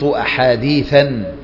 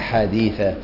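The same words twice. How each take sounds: First: The word ends with an added n sound. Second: The word ends without an added n sound. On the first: The speaker calls it wrong. "حفظت أحاديثا" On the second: The speaker calls it right. "لا"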